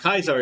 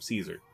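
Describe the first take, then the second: First: The name gets its older, historical pronunciation. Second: The name gets its newer, modern pronunciation. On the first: The speaker is probably associated with the Legion. "actually like the historical pronunciation of it" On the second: The speaker is probably not associated with the Legion. "the more modern interpretation of Caesar"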